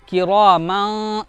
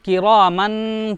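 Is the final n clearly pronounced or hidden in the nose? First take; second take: hidden; clear. First: The final n is hidden as a nasal sound. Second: The final n is clearly pronounced as n. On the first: The speaker calls it right. "ये इख्फा की आवाज है" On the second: The speaker calls it wrong. "ये गलत है, ये आवाज गलत है, ये गुन्ना की आवाज है"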